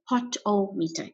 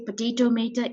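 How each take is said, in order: First: The word begins with the short syllables pot-o. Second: The word begins with the full word potato. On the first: The speaker calls it right. "it's a pot-o-meter" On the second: The speaker calls it wrong. "Please don't say potato meter"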